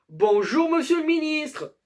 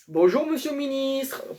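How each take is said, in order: First: It is said louder than before. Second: It is said at normal, quieter volume.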